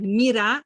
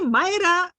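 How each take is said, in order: First: The name starts like the 'mir' of 'miracle'. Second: The name starts like 'my' and ends in 'ra'. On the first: "I pronounce my name like Mira, like miracle" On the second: "I like to be your Ra"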